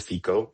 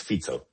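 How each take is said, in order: First: "Fico" said FEE-ko, with a k; mispronunciation demo. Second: "Fico" said FEET-so, with a ts; correct pronunciation. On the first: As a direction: say "Fico" with a hard k. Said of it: "Not, not Fico". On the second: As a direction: say "Fico" with the ts of pizza. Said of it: "Like we pronounce pizza". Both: Shown as a demonstration.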